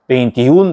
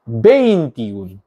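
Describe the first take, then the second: First: The stress falls on the last syllable. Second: The stress falls before the last syllable. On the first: The speaker calls it right. "틸레를 딱 써서 균형을 맞춰준다" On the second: The speaker calls it wrong. "이 틸레가 없으면 어떻게 되나요? ... 언어 파괴"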